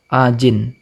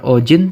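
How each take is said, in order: First: The first vowel sounds like 'a'. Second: The first vowel sounds like 'o'. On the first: The speaker calls it right. "tapi ajin" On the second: The speaker calls it wrong. "bukan ojin"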